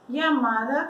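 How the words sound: The first sound is like an English y. "como se fosse um iai"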